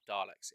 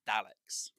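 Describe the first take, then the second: First: Daleks with a long "ar", like Darleks; wrong vowel. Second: Daleks with short flat A, as in Dal. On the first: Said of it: "It's not Daleks". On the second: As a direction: say Daleks with the A of cat. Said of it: "There's no R in it". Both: Shown as a demonstration.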